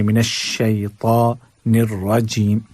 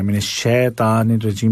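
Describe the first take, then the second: First: Slow शैतानिर with "shay" glide and heavy t; correct tajweed. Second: शैतानिर as "shetanir", no glide, thin t; wrong everyday reading. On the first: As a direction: draw out "shay-taa" in शैतानिर. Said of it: "बल्कि". (शैतानिर में "शइ" और मोटी ता) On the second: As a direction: say शैतानिर quickly with plain "she". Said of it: "नहीं पढ़ना है". (शैतानिर को "शेतानिर" पढ़ना) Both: Shown as a demonstration.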